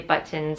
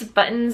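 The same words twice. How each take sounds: First: The t sound is clearly pronounced. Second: The t sound is swallowed into a catch. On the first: "I always pronounce the T's buttons" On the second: "it sounds like B O apostrophe N S"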